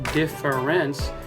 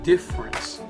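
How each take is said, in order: First: The middle syllable is pronounced in full. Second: The middle syllable before the R is dropped. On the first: The speaker calls it wrong. "it's not" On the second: The speaker calls it right. "the syllable right before that R kind of disappears"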